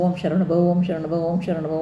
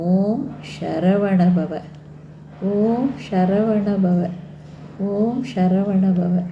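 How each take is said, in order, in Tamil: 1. இது விரைவாக, நிறுத்தாமல் அவசரமாகச் சொல்லப்படுகிறது. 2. இது மெதுவாக, சொற்றொடர்களுக்கு இடையே நிறுத்தி நிதானமாகச் சொல்லப்படுகிறது. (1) "கடகடன்னு இதை சொல்லி முடிக்கணும், இதை முடிச்சிடணும் அப்படிங்காமல் வேகமாக சொல்லக்கூடாது" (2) "நிறுத்தி நிதானமாக"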